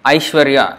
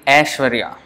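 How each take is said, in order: First: The first vowel is the diphthong 'ai'. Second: The first vowel is a plain 'a' sound. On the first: This is the Sanskrit pronunciation. "Aishwarya in Sanskrit" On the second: This is the Hindi pronunciation. "in Hindi they say A"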